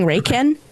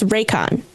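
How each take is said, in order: First: The last syllable sounds like 'can'. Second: The last syllable sounds like 'con'. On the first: The speaker calls it wrong. "I was saying Raycan" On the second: The speaker calls it right. "but it's Raycon. That's how you pronounce it"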